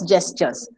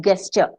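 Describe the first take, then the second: First: The word begins with a soft J sound. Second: The word begins with a hard G sound. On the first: The speaker calls it right. "it's a J. ... it's pronounced as gestures" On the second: The speaker calls it wrong.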